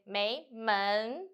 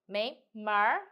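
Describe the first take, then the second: First: The second syllable ends in a plain n. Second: The second syllable ends with a curled-tongue r. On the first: "If you without er" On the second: "with er"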